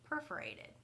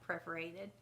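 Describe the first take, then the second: First: The word begins with the sound 'per'. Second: The word begins with the sound 'pre'. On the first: The speaker calls it right. "P E R, not P R E" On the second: The speaker calls it wrong. "Not perforated"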